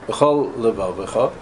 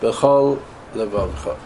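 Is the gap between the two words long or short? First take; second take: short; long. First: There is a short gap between the words. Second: There is a long gap between the words. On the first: The speaker calls it right. "So you can't say it so fast because you have to make different space" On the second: The speaker calls it wrong. "No good. Why not? I made a hefsek. Yeah, but there's a makaf"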